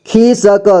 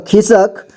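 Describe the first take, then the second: First: खिसक as खि-स-क; syllable by syllable. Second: Said in the usual way. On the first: Shown as a demonstration. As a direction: sound out खिसक in three parts. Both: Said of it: "एक ही बार में पढ़ेंगे".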